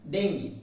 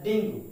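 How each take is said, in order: First: Dengue as "DENG-gee"; correct pronunciation. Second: Dengue as "DENG-goo"; common mispronunciation. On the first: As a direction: end Dengue on an EE sound. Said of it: "What is it?". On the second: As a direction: end dengue on a rounded OO. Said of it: "the fact is it pronounced". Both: Shown as a demonstration.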